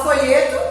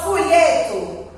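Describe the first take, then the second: First: "folheto" with o kept as o at the end; quick spelling pronunciation of "folheto"; as written. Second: "folheto" with the o sounded as u; natural "folhetu" pronunciation of "folheto". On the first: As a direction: say "folheto" as spelt, final o not turned to u. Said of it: "A gente não fala folheto". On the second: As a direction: say "folheto" the spoken way, o turned to u. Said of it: "a gente pronuncia com som de U". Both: Shown as a demonstration.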